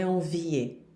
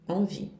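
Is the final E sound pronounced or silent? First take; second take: pronounced; silent. First: The final E is pronounced as a vowel. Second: The final E is silent. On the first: The speaker calls it wrong. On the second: The speaker calls it right.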